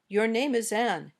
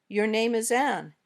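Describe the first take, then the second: The two takes are said the same way.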